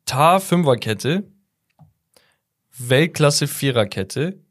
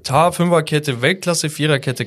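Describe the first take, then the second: First: "Tah Fünferkette" and "Weltklasse Viererkette" slow, each rising questioningly, long pause between; slow and unsure, "Fünferkette" and "Viererkette" left hanging on a rise; puzzled unpunctuated reading. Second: "Tah Fünferkette" and "Weltklasse Viererkette" run on steadily, each falling at the end; higher-pitched, decided phrasing, "Fünferkette" and "Viererkette" stepping down; punctuated rereading. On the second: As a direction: read "Tah Fünferkette, Weltklasse Viererkette" as a clear list, higher start, no long pause.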